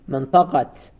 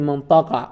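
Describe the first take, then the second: First: The word ends with an audible t sound. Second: The word ends without any t sound. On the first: The noun is attached to a following noun. "in some context we have to pronounce it منطقة" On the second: The noun stands alone. "we can say منطقة or Medina without تاء التأنيث"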